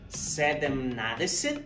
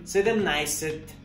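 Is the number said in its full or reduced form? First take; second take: full; reduced. First: Every syllable of the full form is said. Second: The word is shortened, dropping middle sounds. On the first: This is how it is written. "la manera escrita" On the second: This is how it is actually spoken. "la manera al último de cómo se pronuncia"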